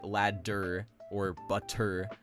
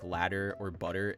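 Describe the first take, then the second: First: The middle consonants are full, hard stops. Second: The middle consonants are quick tongue taps. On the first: The speaker calls it wrong. "We don't actually say" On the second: The speaker calls it right. "the same sound that we make when saying words like"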